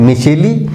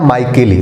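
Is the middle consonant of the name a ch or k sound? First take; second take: ch; k. First: The middle consonant is a ch sound. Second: The middle consonant is a k sound. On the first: "C H से च भी होता है" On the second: "C H से क भी होता है"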